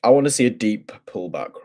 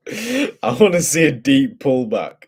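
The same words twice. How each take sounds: First: Emphasise "deep" lightly; stress on deep. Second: "deep" drawn out loud in a slow, raised line; strong stress on deep. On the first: Real, not acted. Trader stating what he wants from the chart, stress on "deep". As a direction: put some weight on the word "deep". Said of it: "emphasis on the deep". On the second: Shown as a demonstration. Trader repeating his wish for emphasis, heavy stress on "deep". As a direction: lean hard and long on "deep".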